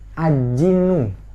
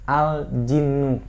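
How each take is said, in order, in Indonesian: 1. Bunyi L dihilangkan sebelum j. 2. Bunyi L dibunyikan dengan jelas sebelum j. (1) "bukan ajinu" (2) "tapi al-jinnu"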